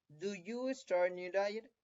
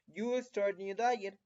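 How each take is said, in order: First: Slow model question, rising at the end of "diet"; question form. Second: Slow model sentence, falling on "diet"; positive statement. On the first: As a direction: ask "Do you start new diet" slowly with a final rise. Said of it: "de pregunta va a ser". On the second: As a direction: say "You start new diet" slowly as a statement, ending in a fall. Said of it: "si la oración positiva era". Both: Shown as a demonstration.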